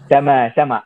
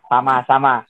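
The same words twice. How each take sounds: First: The A vowels sound raised, like an Arabic speaker. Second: The A vowels sound wide open, Indonesian style. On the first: An Arabic speaker is saying it. "Akan sedikit diangkat kan?" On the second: An Indonesian speaker is saying it. "Seperti kita ya"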